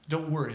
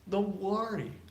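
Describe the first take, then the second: First: It has an English accent with an 'er' vowel. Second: It has a Spanish accent with an 'or' vowel. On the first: The speaker calls it right. "Hopefully you guys hear the difference" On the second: The speaker calls it wrong. "I'm just imitating Spanish speakers"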